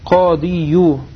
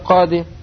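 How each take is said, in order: First: The word ends with an added 'yu' sound. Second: The word ends in a plain 'i' sound. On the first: The speaker calls it wrong. "тяжело говорить яду'у кадию" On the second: The speaker calls it right. "говорили просто кады"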